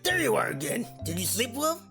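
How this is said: It is said in a deep, throaty voice.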